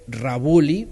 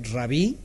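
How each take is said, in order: First: "Rabuli" read as printed, ra-BU-li, rising; "Rabuli" spoken as the text has it; wrong form quoted. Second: "Rabí" said short, stress on the last syllable; "Rabí" as the proper Hebrew title; correct Hebrew form. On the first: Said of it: "pero en hebreo no es Rabuli". ("Rabuli" leído tal como está escrito) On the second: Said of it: "en hebreo es Rabí". ("Rabí" pronunciado correctamente en hebreo) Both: Shown as a demonstration.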